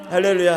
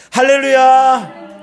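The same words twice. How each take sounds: First: Said in the usual way. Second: High, loud, drawn-out praise shout; shouted hallelujah. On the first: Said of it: "이 정도 아니잖아요". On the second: Shown as a demonstration. Preacher leading congregation in a shout, full-voiced cry. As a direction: shout it long for everyone to join. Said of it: "소리 한번 질러볼까요".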